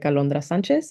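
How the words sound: The name is said with Spanish sounds. "if they know how to speak Spanish, they can say it like"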